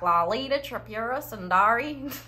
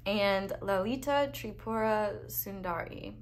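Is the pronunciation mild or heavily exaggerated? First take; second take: heavily exaggerated; mild. First: A heavily exaggerated, mangled American-accented pronunciation. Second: A mild, ordinary American-accented pronunciation. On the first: "That's pretty bad" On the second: "my pronunciation is not amazing"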